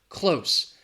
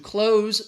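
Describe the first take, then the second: First: The word ends with an S sound. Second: The word ends with a Z sound. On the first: It means near. "the adjective has that S" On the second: It means to shut something. "has that Z sound"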